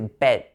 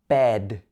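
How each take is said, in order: First: The final consonant sounds voiceless, like a t. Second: The final consonant is a voiced d sound. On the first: The speaker calls it wrong. "Don't say bed" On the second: The speaker calls it right. "It should be bed, d at the end"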